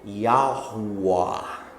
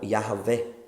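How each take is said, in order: First: The middle is a rounded o-u glide. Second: The middle consonant is a v sound. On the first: "o W teria um som de O U" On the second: "o português inglesado do Brasil dá um som de V para o W"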